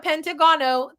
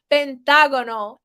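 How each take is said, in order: First: The stress is on another syllable. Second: The stress is on the syllable 'ta'. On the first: The speaker calls it wrong. "It's not a pentagono. That sounds awful" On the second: The speaker calls it right. "The emphasis is on the A in the middle of the word"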